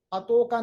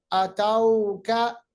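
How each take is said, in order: First: अतौका with a quick short o; clipped अतौका; wrong short o. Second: अतौका slow, au drawn soft; soft drawn vowel. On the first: Teacher shows the wrong sound. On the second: Teacher models अतौका the Arabic way. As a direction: stretch तौ gently. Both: Shown as a demonstration. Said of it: "अतौका नहीं".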